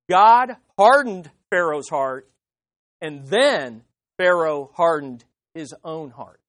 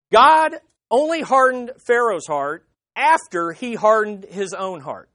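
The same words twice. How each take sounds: First: "God hardened Pharaoh's heart" slow and louder, with stress on "hardened"; slow emphatic correction. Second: Said in the usual way. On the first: Shown as a demonstration. Preacher correcting the scholars for the congregation, slow stress on "hardened". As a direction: spell out the order slowly, with stress on "hardened" and on "then". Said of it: "it just does not support that". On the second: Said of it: "here's what they say".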